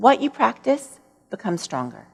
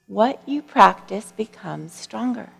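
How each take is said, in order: First: Said in the usual way. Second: "What you practice becomes stronger" slowed right down, each word weighed; slow emphatic repeat. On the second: Shown as a demonstration. Repeating the monk's five words to the audience, slow and emphatic. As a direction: let the line land slowly after a long pause, leaning on "you". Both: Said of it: "these five words that really changed my life".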